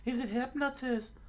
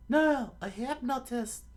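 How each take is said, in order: First: Very high falsetto statement; high cartoon explainer; explaining companion. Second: Slow, loud, high falsetto correction; high-voiced, drawn-out HYPNOTIST; emphatic correction. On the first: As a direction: say HYPNOTIST matter-of-factly in a squeaky voice. First statement, misheard afterwards. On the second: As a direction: punch NO, then stretch out HYPNOTIST in a squeaky voice. Correcting a mishearing.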